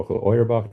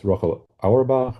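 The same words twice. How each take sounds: First: Auerbach opening with an OY sound; alternative pronunciation. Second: Auerbach opening with an OW sound; first pronunciation variant. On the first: Lecturer offers the other pronunciation, Auerbach said OY-er-bakh. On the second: Lecturer offers a name's pronunciation, Auerbach said OW-er-bakh. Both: Shown as a demonstration. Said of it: "depending on how you pronounce her name".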